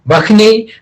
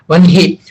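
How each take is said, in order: First: A 'kh' sound comes before the 'n'. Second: The 'n' comes before a soft 'h'. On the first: Some readers pronounce it this way. "somebody will say it as uh, Vakhni" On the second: Other readers pronounce it this way. "some Sanskrit readers will pronounce as one, Vanhi"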